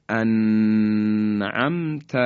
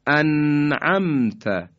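First: انعمت with the nun stretched and lingered on, very slow; wrong held nun. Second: انعمت with a short, crisp nun closed straight into the ain, slow; correct clear izhar. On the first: Teacher shows students the wrong, lingering nun in انعمت. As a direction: drag out the nun of انعمت as the faulty pause. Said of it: "اگر ما نون ساکن رو مکس بکنیم". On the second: Teacher gives students the correct recitation after the wrong ones. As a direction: clean unvoweled nun, no lingering. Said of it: "اینم صحیح نیست". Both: Shown as a demonstration.

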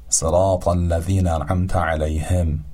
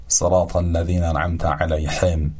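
First: علیهم with a light Persian h; صراط الذین انعمت علیهم with an ordinary h; soft h. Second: علیهم with a throaty ḥ in place of h; صراط الذین انعمت علیهم with a pharyngeal ḥ; wrong throaty ḥ. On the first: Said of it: "به شکل حرف هی جیمی تلفظ نکنیم". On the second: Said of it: "و نه". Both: Shown as a demonstration.

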